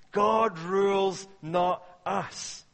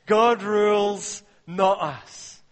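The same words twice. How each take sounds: First: God rules, slow and firm; restating it steadily; slower repeat. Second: God rules, slow and loud; preacher stressing "God rules"; emphatic, slow declaration. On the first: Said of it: "point repeated". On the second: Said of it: "key point declared". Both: Real, not acted.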